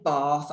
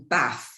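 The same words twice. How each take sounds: First: The word is said in a standard English accent. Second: The word is said in a northern English accent. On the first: This is not how the speaker normally says it. "I don't say bath" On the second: This is how the speaker normally says it. "I say bath. Yeah. Because that those are my northern roots"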